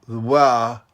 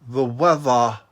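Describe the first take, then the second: Both takes have the same delivery.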